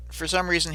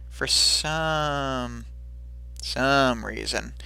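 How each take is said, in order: First: Said in the usual way. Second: "some" drawn out long, then repeated; slow, knowing stress on "some"; pointed emphasis. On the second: Retold or imitated. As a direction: linger on "some", pause, say "some" once more. Repeats phrase pointedly for effect.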